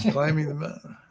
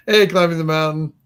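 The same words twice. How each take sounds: First: Said in the usual way. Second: Louder retake. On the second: Shown as a demonstration.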